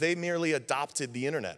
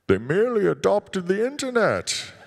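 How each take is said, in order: First: It is said in his normal voice. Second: It is said in a Bane impression.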